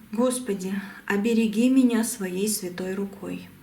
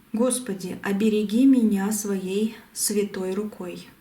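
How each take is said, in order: Both takes have the same delivery.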